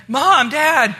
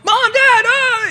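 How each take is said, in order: First: Loud, higher call of Mom, Dad; calling out for parents. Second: Very high, loud panicked shriek; panicked scream. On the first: Kid home from school calling for his parents, loud call. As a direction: call through the empty house for your parents. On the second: Kid finds the house empty, fears the rapture, panicked shriek. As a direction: scream it out as if everyone vanished. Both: Retold or imitated. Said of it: "he's freaking out going".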